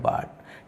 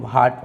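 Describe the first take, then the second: First: The first consonant is plain, with no h. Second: The first consonant has a breathy h sound. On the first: The speaker calls it right. "इसको बाट पढ़ा जाएगा" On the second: The speaker calls it wrong. "इसको भाट पढ़ते हैं, तो ये गलत"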